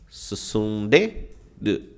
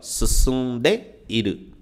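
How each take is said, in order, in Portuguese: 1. O som 'i' antes de 'ru' é omitido. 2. O som 'i' antes de 'ru' é pronunciado.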